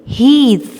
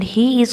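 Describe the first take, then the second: First: "He is" merged into "he's", higher and louder; joined contraction. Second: Said in the usual way. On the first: Shown as a demonstration. Teacher showing pupils the contraction, "He is" run into one syllable. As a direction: say "He is" as one long, emphatic "heez". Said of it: "तो हम इसे अब कैसे pronounce करेंगे". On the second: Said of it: "को जब join किया है".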